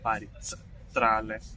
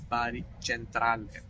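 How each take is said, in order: First: Centrale begins with a sound other than ch. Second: Centrale begins with a ch sound. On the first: The speaker calls it wrong. "so it's not Bari Centrale" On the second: The speaker calls it right. "the C is pronounced as ch"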